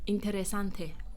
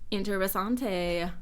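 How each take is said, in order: First: It is said with a more native-like accent. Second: It is said with a heavy foreign accent. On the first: The speaker calls it right. "Let me make it better" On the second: The speaker calls it wrong. "I said that with a horrible accent"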